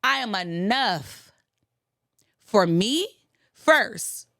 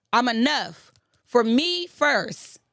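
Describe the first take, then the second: First: Said in the usual way. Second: Slow and deliberate, each word leaned on; emphatic repeat, slowed. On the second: Shown as a demonstration. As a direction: spell it out slowly so it sinks in. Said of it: "repeated for emphasis".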